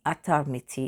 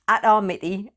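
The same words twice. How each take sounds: First: Lightly attempted Hindi accent; a hint of a Hindi accent. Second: Atar Miti in a British accent; deliberately British pronunciation; best British accent. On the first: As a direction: try a careful Hindi pronunciation of the name. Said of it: "attempted best Hindi accent". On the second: Shown as a demonstration. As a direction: say the name with plain British vowels. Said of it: "in my best, um, British accent".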